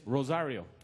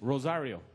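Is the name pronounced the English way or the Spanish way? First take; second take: English; English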